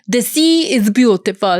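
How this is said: It is said in an Italian accent.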